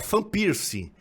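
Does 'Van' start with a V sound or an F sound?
F sound. Van begins with an F sound. "seria Van Persie; tem som de F"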